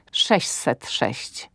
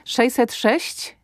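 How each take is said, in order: First: Wolne „sześset sześć” z miękkim ś; wymowa staranniejsza. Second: Wolne „szejset sześć”, wyżej, z zawieszeniem; wymowa uproszczona. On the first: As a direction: powiedz „sześćset” jako „sześset”, wolno, opadająco. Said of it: "czy sześćset sześć". („sześćset” z wyraźnym ś przed „set”) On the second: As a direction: powiedz „sześćset” jako „szejset”, wolno. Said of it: "ale sześćset sześć". („szejset” zamiast „sześćset”) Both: Shown as a demonstration.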